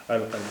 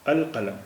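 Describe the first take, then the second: First: القلم, lam pronounced; القلم with a sounded lam; demo of al-qalam. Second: القلم with the lam clearly sounded; القلم with a clear lam before ق; demo of al-qalam. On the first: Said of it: "لام کا اچارن ہو رہا ہے". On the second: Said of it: "ال بولا جائے گا". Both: Shown as a demonstration.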